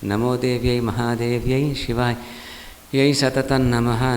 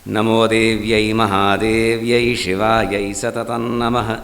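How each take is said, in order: First: The voice sounds breathless and strained. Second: The voice sounds steady, clear and strong. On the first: Speech and breath are not working together. The speaker calls it wrong. "सांस फूल गई।" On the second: Speech and breath are working together. The speaker calls it right. "ठीक आ गया। उच्चारण भी स्पष्ट हो गया, उसमें बल भी रहा"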